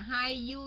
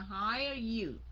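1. Hire được đọc không có âm r ở cuối. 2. Hire được đọc có âm r ở cuối. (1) "không phải là hire you nha" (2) "Có âm R phía sau, ... mà là hire you"

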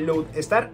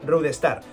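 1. La palabra empieza con un sonido L. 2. La palabra empieza con un sonido R. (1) "en vez de Lodestar" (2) "es cambiar la L por la R, ¿vale? Como se hace en japonés"

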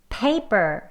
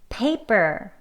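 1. 강세는 첫 번째 음절에 있어요. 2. 강세는 첫 번째 음절에 있어요.

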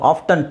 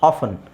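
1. ಮಧ್ಯದಲ್ಲಿರುವ t ಶಬ್ದ ಉಚ್ಚರಿಸಲಾಗುತ್ತದೆ. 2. ಮಧ್ಯದಲ್ಲಿರುವ t ಶಬ್ದ ಸೈಲೆಂಟ್ ಆಗಿರುತ್ತದೆ. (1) "ಟಿ ಹಾಕ್ಕೊಂಡು ಹೇಳ್ಬೋದು" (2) "so I would say like ಆಫನ್ is better option"

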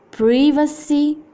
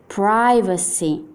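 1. Si pronuncia con un accento inglese britannico. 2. Si pronuncia con un accento inglese americano. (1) "inglese britannico" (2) "inglese americano"

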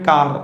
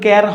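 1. স্বরটা father শব্দের a-এর মতো। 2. স্বরটা bat শব্দের a-এর মতো। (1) "উচ্চারণ হয় কার" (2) "কিন্তু সি এ আর উচ্চারণ কিন্তু ক্যার হয় না"

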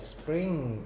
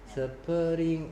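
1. 시작 자음은 빠르게 이어서 발음해요. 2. 시작 자음은 천천히 따로 발음해요. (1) "빨리 발음해라 이 말이야. ... 이렇게 하는 거야" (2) "이게 아니고"

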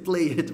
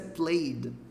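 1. É pronunciada como está escrito. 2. É pronunciada do jeito nativo do inglês. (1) "Eu sei que tá escrito played" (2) "mas a pronúncia é played"

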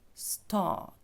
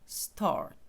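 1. Довгий голосний А без звуку r. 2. Голосний, після якого чутний звук r. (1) "цей довгий звук А" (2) "американський варіант вимови, то вони там люблять цей звук «ри»"

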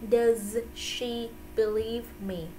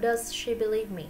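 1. Câu này được nói chậm và cẩn thận. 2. Câu này được nói nhanh. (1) "phải đọc cực khổ một chút xíu" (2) "Đọc nhanh cũng được"

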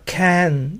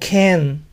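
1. La vocal suena como una 'a' abierta y sencilla. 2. La vocal se alarga hasta parecerse a una 'e'. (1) "la pronunciación ahí escrita es can" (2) "exagerar este sonido al grado que puede parecer una E"

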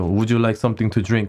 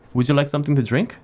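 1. 목소리가 밋밋하고 거칠고 위협적으로 들려요. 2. 목소리가 따뜻하고 친근하고 미소 짓는 것처럼 들려요.

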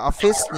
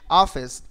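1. Trọng âm rơi vào âm tiết thứ hai. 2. Trọng âm rơi vào âm tiết thứ nhất.

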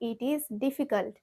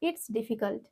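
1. 'It is' দুটি পূর্ণ শব্দ হিসেবে বলা হয়। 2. 'It is' সংকুচিত হয়ে একটি সিলেবলে বলা হয়। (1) "ইট ইজ difficult or ইটস difficult" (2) "এভাবে বলতে পারি ইটস ডিফিকাল্ট"

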